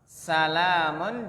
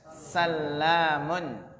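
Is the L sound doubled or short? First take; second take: short; doubled. First: The L sound is short and single. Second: The L sound is held and doubled. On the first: "Yang pertama al-awwal bi takhfifil lam" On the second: "Sedangkan yang kedua adalah dengan mentasydid lam"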